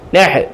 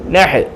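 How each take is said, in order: No difference in how they are said.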